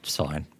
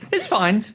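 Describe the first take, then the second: First: It is said after a weary sigh. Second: It is said plainly with no sigh.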